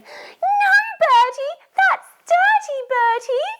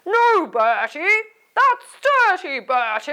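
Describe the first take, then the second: First: It is said in Susie's voice. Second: It is said in a dad's voice.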